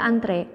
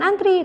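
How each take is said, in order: First: The word ends with an 'eh' vowel. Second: The word ends with an 'ee' vowel. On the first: The speaker calls it right. "dibacanya juga antre" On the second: The speaker calls it wrong. "bukan antri"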